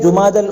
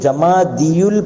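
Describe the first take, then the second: First: The first syllable is 'ju' and has no extra 'iyu'. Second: The first syllable is 'ja' and has an extra 'iyu'. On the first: The speaker calls it right. "जीम पर याद रखें पेश है, दाल पर ज़बर है" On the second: The speaker calls it wrong. "इसको जमादियुल पढ़ना गलत है"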